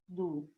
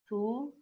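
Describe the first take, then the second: First: The syllable begins with a voiced D sound. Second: The syllable begins with a voiceless T sound. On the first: "pode ser tu ou du" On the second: "pode ser tu ou du"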